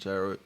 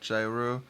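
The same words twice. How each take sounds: First: It begins with a 'y' sound, like hero. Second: It begins with a 'j' sound, like gyroscope. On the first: It names the Greek food. "hero, G, hero, which is Greek" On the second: It names the spinning device. "like gyroscopic"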